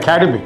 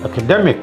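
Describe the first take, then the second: First: The stress is not on the third syllable. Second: The stress is on the third syllable. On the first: The speaker calls it wrong. "not academic" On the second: The speaker calls it right. "the syllable before that is stressed"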